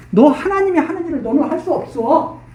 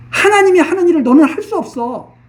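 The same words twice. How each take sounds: First: Said in the usual way. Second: Stern preacher's emphatic repeat; forceful rebuke. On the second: Shown as a demonstration. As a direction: hammer the repeat home.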